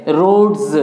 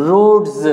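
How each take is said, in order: No difference in how they are said.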